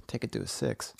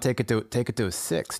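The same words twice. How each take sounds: First: Hushed, breathy take on the phrase; calming whisper. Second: Said in the usual way. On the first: Shown as a demonstration. Friend soothing an angry friend, whispered. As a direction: whisper it softly to calm him down. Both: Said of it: "Calm it down".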